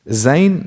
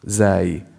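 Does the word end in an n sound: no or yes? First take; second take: yes; no. First: The word ends with an n sound. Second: The word ends without an n sound. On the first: The speaker calls it wrong. "No, that's wrong" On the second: The speaker calls it right. "We don't say zayn"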